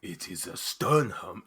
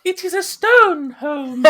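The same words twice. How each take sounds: First: The voice she abandons; first NPC voice. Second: Much higher, slow, shrill-free squeak; high-pitched voice. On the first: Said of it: "I've got to change that voice". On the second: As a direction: jump to the top of the range. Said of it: "go complete opposite end of the scale". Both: Shown as a demonstration.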